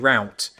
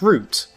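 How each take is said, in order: First: The vowel sounds like 'ow' in 'cow'. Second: The vowel sounds like 'oo' in 'boot'. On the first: This is how Americans say it. The speaker calls it wrong. "I know they say route, which I think is a bit silly" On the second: This is how the speaker says it. The speaker calls it right. "So it's root"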